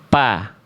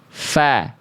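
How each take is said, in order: First: The lips close for a p with no airflow. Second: Breath flows out in a breathy f sound. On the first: The speaker calls it wrong. "nggak ada nafas yang keluar" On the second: The speaker calls it right. "Pasti dia harus mengalir nafas"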